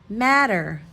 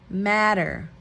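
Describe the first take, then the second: No difference in how they are said.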